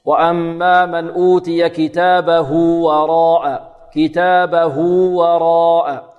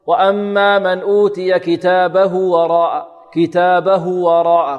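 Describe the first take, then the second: First: Slow chant holding كتابه as "hū" for two counts before وراء; correct linking waw. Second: Slow chant with كتابه ending in a short "hu" before وراء; wrong linking, waw shortened. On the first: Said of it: "نثبتها حرف مد ولين بمقدار حركتين". (تلاوة بإثبات واو الصلة في كتابه حركتين) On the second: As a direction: deliberately clip the linking ū of كتابه. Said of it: "خطأ". (تلاوة خاطئة بقصر صلة هاء كتابه) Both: Shown as a demonstration.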